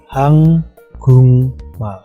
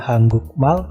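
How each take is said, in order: First: The syllable before mal ends in an ng sound. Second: The syllable before mal ends in a k sound. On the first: The speaker calls it right. "tapi hang gung mal" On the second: The speaker calls it wrong. "bukan hang guk mal"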